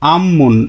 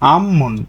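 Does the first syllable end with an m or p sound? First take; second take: m; m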